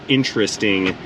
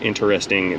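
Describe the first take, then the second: First: The word is clipped, with a syllable squeezed out. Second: The word is said in full, beginning like 'interest'. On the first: The speaker calls it wrong. "We all say interesting because we're Americans and we're lazy with our speech" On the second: The speaker calls it right. "we're supposed to be saying interesting because it piques our interest"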